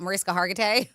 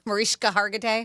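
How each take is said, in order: First: Mariska with a plain "sk"; hard s before the k in Mariska; common pronunciation. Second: Mariska with "shk"; proper pronunciation. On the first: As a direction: say Mariska as muh-RIS-kuh. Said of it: "Her name is just difficult". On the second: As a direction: say Mariska as muh-REESH-kuh. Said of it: "it's properly pronounced Mariska". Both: Shown as a demonstration.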